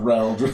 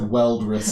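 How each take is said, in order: First: The name begins with an R sound. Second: The name begins with a W sound. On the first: The speaker calls it right. "not, not Reldrissa" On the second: The speaker calls it wrong. "I'm going to mispronounce that as Weldrissa"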